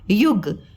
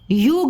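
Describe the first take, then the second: First: The u vowel is short and quick. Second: The u vowel is long and drawn out. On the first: The speaker calls it right. "हम क्या बोलते हैं" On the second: The speaker calls it wrong. "युग नहीं बोलते हैं"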